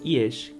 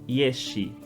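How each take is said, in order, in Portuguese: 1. A palavra termina limpa na consoante sh. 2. Uma vogal extra é acrescentada depois do sh final. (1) "e não yesh, que é a forma correta" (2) "muitas pessoas pronunciam yeshi"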